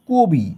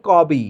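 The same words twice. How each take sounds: First: কবি with rounded o, kobi. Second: কবি with open "aw" after k; spelling pronunciation. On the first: Teacher shows how we pronounce কবি, ক turned to ko. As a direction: say কবি with a closed o after k. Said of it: "ক কেন কো হয়ে যাচ্ছে". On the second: Teacher shows what is written, কবি with open অ. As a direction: read কবি as written, kawbi. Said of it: "এখানে লেখা আছে". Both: Shown as a demonstration.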